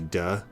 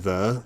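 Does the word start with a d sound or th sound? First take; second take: d sound; th sound. First: The word starts with a hard d sound. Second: The word starts with a soft th sound. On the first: This is how little children say it. "they'll say duh" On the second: This is the adult pronunciation. "instead of pr- saying the"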